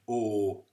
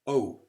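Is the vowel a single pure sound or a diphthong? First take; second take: pure vowel; diphthong. First: The vowel is one long unchanging sound. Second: The vowel glides into an oo sound. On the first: The speaker calls it right. "it's only one long sound" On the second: The speaker calls it wrong. "where there's an oo afterwards"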